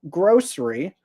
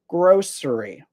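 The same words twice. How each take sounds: First: The word is said with two syllables. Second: The word is said with three syllables. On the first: "with the S sound, two syllables" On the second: "with the S sound and three syllables"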